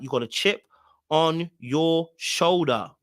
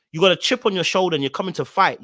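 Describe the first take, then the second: First: "on your shoulder" spaced out word by word; slow right down on "on your shoulder", each word separate; slow emphatic repeat. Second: Rapid run-through in one go; quick accusation. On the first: Host driving home the chip on her shoulder, slow and emphatic. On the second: Host calling out Tequila's combative energy, quick accusation. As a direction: fire the whole line off quickly. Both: Real, not acted.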